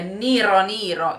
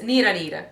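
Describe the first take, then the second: First: The R sound is strong and heavily stressed. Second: The R sound is light and barely stressed. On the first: The speaker calls it wrong. "English speakers um, really aim for the R's" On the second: The speaker calls it right. "Not so much the R"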